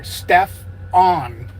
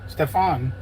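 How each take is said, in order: First: Both syllables are said slowly and clearly apart. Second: The name is said quickly as one smooth word. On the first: The speaker calls it right. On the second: The speaker calls it wrong.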